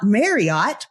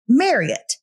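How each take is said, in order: First: The name is said not rhyming with Elliot. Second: The name is said to rhyme with Elliot. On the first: The speaker calls it wrong. "not Marriott" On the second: The speaker calls it right. "like Elliot"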